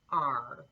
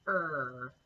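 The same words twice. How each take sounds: First: "R" said as the letter name, opening on a clear "ah" before the r. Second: "er" said as a plain r-colored vowel with no lead-in vowel; er sound. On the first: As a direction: start "R" with an open "ah" vowel, then glide into r. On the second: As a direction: say "er" as one smooth r sound, straight from the start. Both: Shown as a demonstration. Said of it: "Did you hear that little difference in the beginning?".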